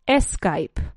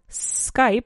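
First: An E sound comes before the S sound. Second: The word starts directly with the S sound. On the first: The speaker calls it wrong. "you place an E sound before the S sound" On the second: The speaker calls it right. "instead of Skype"

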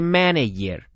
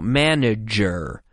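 First: The middle consonant sounds like a 'y'. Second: The middle consonant sounds like a 'j'. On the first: The speaker calls it wrong. "you have to be careful not to pronounce it like a Y. We don't say manager" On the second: The speaker calls it right. "No, manager"

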